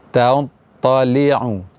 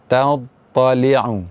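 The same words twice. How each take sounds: Both takes have the same delivery.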